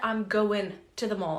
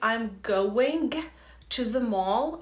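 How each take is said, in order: First: The g at the end of going is dropped. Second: The g at the end of going is fully pronounced. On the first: "to pronounce it in a more natural way, you can skip it" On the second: "instead of saying"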